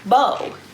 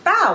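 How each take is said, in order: First: The vowel sounds like the one in go. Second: The vowel sounds like the one in cow. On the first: The speaker calls it wrong. "and not like bow" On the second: The speaker calls it right. "bao is pronounced like bow, like when you take a bow"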